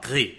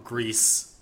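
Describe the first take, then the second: First: It is said with a French pronunciation. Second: It is said with an English pronunciation.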